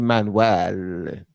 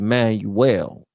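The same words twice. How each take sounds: First: The name is said with a Cuban Spanish sound. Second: The name is said with an American English sound. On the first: This is how the other person's community says it. "That's how the that's how you Cubans say it" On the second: This is how the speaker says it himself. "I say Manuel"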